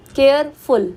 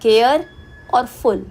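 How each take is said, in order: First: Said in the usual way. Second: careful broken as care, pause, और फुल; care rising, stop, then और फुल; split into syllables. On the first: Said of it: "एक से ज़्यादा sound". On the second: Shown as a demonstration. Teacher showing where careful divides, with a clear pause. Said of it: "कुछ division आ रही है".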